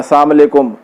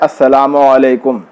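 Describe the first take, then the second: First: It is run together as 'assalam walekum'. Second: It is said fully as 'assalamu alaikum'. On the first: The wording changes the meaning of the blessing. The speaker calls it wrong. "बिल्कुल गलत है" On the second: It carries the intended blessing of peace. The speaker calls it right. "सही सलाम यह है"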